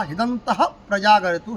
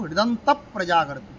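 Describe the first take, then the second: First: হৃদন্তঃ ends in a breathed ঃ before প্রজাগরতু; separate visarga. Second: হৃদন্ত joined to প্রজাগরতু by a doubled p. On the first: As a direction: keep the h-sound at the end of হৃদন্তঃ. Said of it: "আমি ভেঙে ভেঙে বলছি". (হৃদন্তঃ-এর বিসর্গ আলাদা করে) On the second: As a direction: close হৃদন্ত on a p that runs into প্রজাগরতু. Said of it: "পয় পয়". (হৃদন্ত প্রজাগরতু জুড়ে পয় পয় দ্বিত্ব) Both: Shown as a demonstration.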